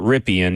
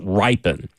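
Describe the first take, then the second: First: The surname is said the way it is spelled. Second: The surname is said as the family says it. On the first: The speaker calls it wrong. "It's not Ripien, even though it's totally spelled that way" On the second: The speaker calls it right. "It's Ripon"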